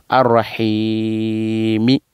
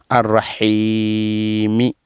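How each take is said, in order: Both takes have the same delivery.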